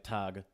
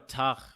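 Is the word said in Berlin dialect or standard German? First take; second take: standard German; Berlin dialect. First: It is said with a standard German pronunciation. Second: It is said with a Berlin dialect pronunciation.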